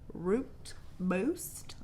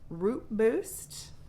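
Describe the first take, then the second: First: It is said slowly with crisp, clear articulation. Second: It is said quickly with loose articulation.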